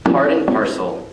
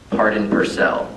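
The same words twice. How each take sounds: First: Said in the usual way. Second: "parcel" said as "per-SELL"; altered word stress. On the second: Shown as a demonstration. Poet punning on a set phrase, "parcel" turned into per-SELL. Wordplay, second word respoken.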